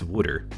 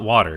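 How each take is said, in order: First: The word is said in a Philadelphia accent. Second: The word is said in a standard accent. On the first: "that's how people in Philadelphia call it" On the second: "it's not water"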